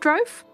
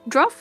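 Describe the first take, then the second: First: The vowel is long, rhyming with stove. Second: The vowel is short, rhyming with rough. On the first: The speaker calls it wrong. "not drove" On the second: The speaker calls it right. "I was leaning towards the more how druff, like druff"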